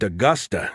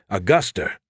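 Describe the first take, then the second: First: "Augusta" ending in an open uh; standard ending. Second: "Augusta" ending in an R, "Auguster"; added R. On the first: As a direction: say "Augusta" with no R at the end. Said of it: "the capital of Maine isn't Augusta". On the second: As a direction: tack an R onto the end of "Augusta". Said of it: "an R at the end but don't". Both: Acted.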